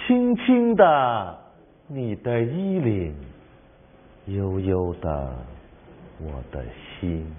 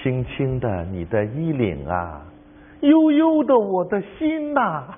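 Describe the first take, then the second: First: The first half is stressed and higher. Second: The second half is stressed and higher.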